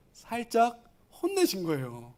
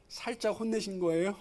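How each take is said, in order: First: 살짝 held apart, then 혼내신 거예요; pointed answer. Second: 혼내신 거예요 softly asked with a final rise; questioning rise. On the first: Preacher answering his own question to the congregation, pointed answer. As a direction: pause after 살짝 before landing 혼내신 거예요. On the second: Preacher quizzing the congregation on Jesus' reply, questioning rise. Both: Shown as a demonstration.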